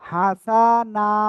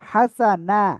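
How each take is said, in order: First: A vowel in the word is drawn out long. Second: The vowels in the word are kept short. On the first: The speaker calls it wrong. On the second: The speaker calls it right.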